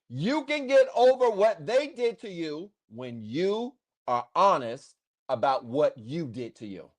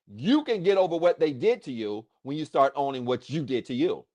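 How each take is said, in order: First: It is said slowly. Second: It is said at normal speed.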